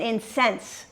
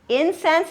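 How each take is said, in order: First: "incense" said in-SENSE; "incense" as a verb, end-stressed in-SENSE; stress on second syllable. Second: "Incense" said IN-sense; "Incense" as a noun, front-stressed IN-sense; stress on first syllable. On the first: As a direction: hit SENSE in "incense", meaning enrage. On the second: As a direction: hit IN in "Incense", the burning gum. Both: Shown as a demonstration. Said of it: "you're changing the emphasis".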